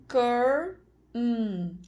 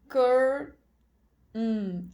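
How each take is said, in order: Both takes have the same delivery.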